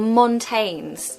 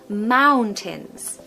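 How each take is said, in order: First: The last syllable sounds like 'tanes'. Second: The last syllable sounds like 'tins'. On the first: The speaker calls it wrong. "We don't want to hear mountains, okay? Or montanes" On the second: The speaker calls it right. "The second part is like tins"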